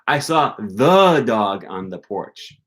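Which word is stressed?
first the. The stress falls on the first the. It was a special, particular dog. "not just a dog. It was the dog"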